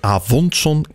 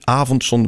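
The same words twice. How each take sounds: First: The stress is on the last syllable. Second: The stress is on the first syllable. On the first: The speaker calls it wrong. "En avondzon kan niet" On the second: The speaker calls it right. "Avondzon wel"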